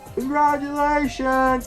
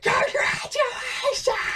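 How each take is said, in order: First: It sounds warm and nice. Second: It sounds less nice and more awkward.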